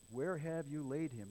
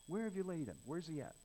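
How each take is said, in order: First: Said in the usual way. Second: Higher, quicker impatient question; irritated paraphrase. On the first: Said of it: "he says". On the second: Acted. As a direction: act out an irritated demand. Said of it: "In other words".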